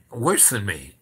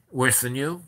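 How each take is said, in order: First: "worse than me" falling firmly at the end; confirming echo. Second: "worse than you" lifted at the end like a question; questioning echo. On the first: The lawyer confirms she is worse, "worse than me" with a fall. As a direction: let "me" drop as a settled answer. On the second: Comparing Madame with the lawyer, "worse than you" asked with a rise. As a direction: let "you" rise, as if checking. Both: Retold or imitated.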